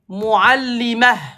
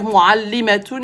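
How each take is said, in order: First: The word ends in 'ah' without a 't'. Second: The word ends with a 't' and '-un'. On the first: The speaker stops after the word. "Quand tu t'arrêtes, tu prononces pas ta" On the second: The speaker continues the sentence after the word. "si tu continues, tu prononces ta"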